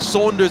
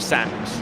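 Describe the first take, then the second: First: The first vowel sounds like 'aw'. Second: The first vowel sounds like short 'a'. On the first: The speaker calls it wrong. "I was saying Saunders instead of Sanders" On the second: The speaker calls it right. "instead of Sanders"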